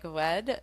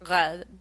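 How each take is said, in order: First: The R sounds rounded and w-like, made with the lips. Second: The R sounds tight and pulled back in the mouth. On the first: "a v distortion" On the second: "a more posterior and tighter"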